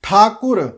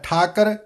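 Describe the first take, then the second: First: The second syllable has a 'u' vowel. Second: The second syllable has an 'a' vowel. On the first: The speaker calls it right. "ਕੱਕੇ ਨੂੰ ਔਂਕੜ ਉਚਾਰਨ ਕਰਨਾ ਹੈ" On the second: The speaker calls it wrong. "ਇਸ ਤਰ੍ਹਾਂ ਉਚਾਰਨ ਨਹੀਂ ਕਰਨਾ"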